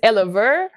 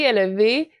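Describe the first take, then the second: First: The word ends with an 'er' sound. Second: The word ends with an 'ay' sound. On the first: The speaker calls it wrong. "j'avais peur que les gens disent Elever, et je trouvais ça pas beau" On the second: The speaker calls it right. "c'est un petit jeu de mots avec mes V"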